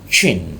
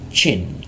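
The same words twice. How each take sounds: No difference in how they are said.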